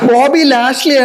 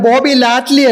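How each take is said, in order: First: The surname has an 'sh' sound: Lashley. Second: The surname has a 't' sound: Latli. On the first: The speaker calls it right. "Bobby ലാഷ്ലി ആണ്" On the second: The speaker calls it wrong. "Bobby ലാറ്റ്ലി അല്ല"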